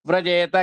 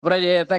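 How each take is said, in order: The two takes are said the same way.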